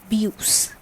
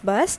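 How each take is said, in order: First: The word is pronounced the French way. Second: The word is pronounced the English way. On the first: "in French this is bus" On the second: "In English this is bus"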